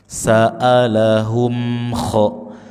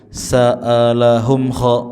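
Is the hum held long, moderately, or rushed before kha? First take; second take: moderate; rushed. First: The hum is held briefly before kha. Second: The hum is rushed straight into kha. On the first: The speaker calls it right. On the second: The speaker calls it wrong.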